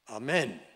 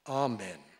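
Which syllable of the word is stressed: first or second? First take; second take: second; first. First: The stress is on the second syllable. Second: The stress is on the first syllable. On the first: The speaker calls it wrong. "If you put it on the second syllable" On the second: The speaker calls it right. "the emphasis is on the first syllable"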